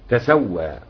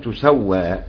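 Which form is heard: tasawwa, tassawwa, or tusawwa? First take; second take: tasawwa; tusawwa. First: The first vowel is a; the s is single. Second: The first vowel is u; the s is single. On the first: This is the remaining readers' version of the word. "باقي القراء يقرؤون" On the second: This is one school's reading of the word. "الضم لما حق"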